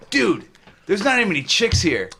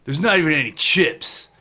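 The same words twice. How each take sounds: First: Lightly voiced party dude quote; frat bro. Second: Said in the usual way. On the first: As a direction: quote the movie like a frat guy. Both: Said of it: "One of my favorite things is P C U".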